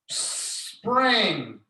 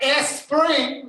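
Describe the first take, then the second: First: The word starts directly with the s sound. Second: An extra vowel sound comes before the word. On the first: The speaker calls it right. "It's just mouth closed" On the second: The speaker calls it wrong. "It is not a spring. No E al frente"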